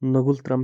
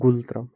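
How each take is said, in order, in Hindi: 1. शब्द n की ध्वनि से शुरू होता है। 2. शब्द n की ध्वनि के बिना शुरू होता है। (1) "इसकी करेंसी है नगुलत्रम" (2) "कुछ बोलते हैं गुलत्रम, एन साइलेंट करके"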